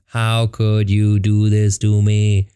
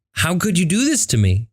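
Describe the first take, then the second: First: Slow, heavy, each word stretched out; slow-motion magic words; drawn-out lament. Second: High, wounded plea; higher-pitched retold heartbreak; hurt disbelief. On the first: Retold or imitated. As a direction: draw the words out slowly at your usual pitch. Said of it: "The magic words are". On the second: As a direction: plead it in a raised, hurt voice. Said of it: "this immense sadness".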